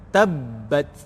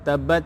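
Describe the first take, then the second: First: The b is pressed and held a little longer. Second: The b is short, with no extra pressure. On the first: The speaker calls it right. "Dia sabdu ni kita kena tekan sikit" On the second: The speaker calls it wrong. "jangan baca tabbat yada abi ... itu tak ada penekanan pada sabdu"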